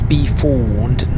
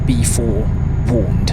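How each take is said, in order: First: "be forewarned" said as one joined phrase; emphasis demo. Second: Slow "be forewarned", pulled apart before "warned"; shifted emphasis demo. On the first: Driver showing viewers how emphasis changes meaning, joined-up "be forewarned". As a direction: say "be forewarned" without a break before "warned". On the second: Driver showing viewers the misheard wording, slow split-up "be forewarned". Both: Shown as a demonstration. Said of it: "where you put the emphasis on a word".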